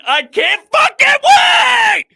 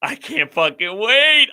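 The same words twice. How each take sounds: First: A high, loud, slow shout that peaks on wait; excited shout. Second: Said in the usual way. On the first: Real, not acted. Fan before the Phillies opener, screaming with excitement. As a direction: let it burst out of you, scream it.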